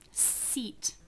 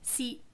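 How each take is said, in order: First: The final t is released with a puff of air. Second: The final t is held without any release. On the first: "Seat has the aspiration at the end" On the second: "I put my tongue up there, but I didn't release the sound"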